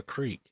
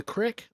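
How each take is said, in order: First: Creek with a long ee; long-vowel creek; standard form of creek. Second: Crick with a short i; short-vowel crick; dialect form of creek. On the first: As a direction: say creek to rhyme with week. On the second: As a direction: say crick to rhyme with brick. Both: Shown as a demonstration. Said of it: "Is it a crick or a creek?".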